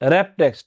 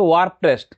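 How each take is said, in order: First: The first word sounds like 'wrap'. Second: The first word sounds like 'warp'. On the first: The speaker calls it right. "আসল উচ্চারণটা কি হবে?" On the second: The speaker calls it wrong. "এখানে লেখা আছে ওয়ার্প text"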